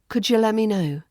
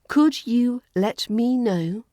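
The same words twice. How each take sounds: First: The words run together with reduced sounds. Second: Each word is said separately and fully.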